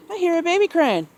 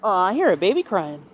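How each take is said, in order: First: Much higher, cooed to the bird; high sing-song. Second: Said in the usual way. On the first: Real, not acted. Owner repeats the news to her parrot in a high coo.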